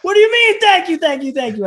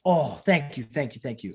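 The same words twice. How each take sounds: First: High, loud incredulous outburst; mock-outraged amazement, easing as it goes; flabbergasted. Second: Grateful. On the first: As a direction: shout the thanks back in disbelief. Astonished at legend thanking him. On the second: Retold or imitated. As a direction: imitate a humble, relieved thank-you. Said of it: "he's sitting here thanking me".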